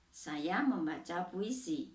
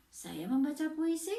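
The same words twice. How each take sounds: First: "saya membaca puisi" as a measured statement, falling at the end; statement intonation. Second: "saya membaca puisi" as a question, pitch climbing high on "puisi"; question intonation. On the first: Teacher showing pupils how intonation changes meaning, statement intonation. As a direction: let "puisi" drop like a full stop. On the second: Teacher showing pupils how intonation changes meaning, question intonation. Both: Shown as a demonstration. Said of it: "yang satu kalimatannya".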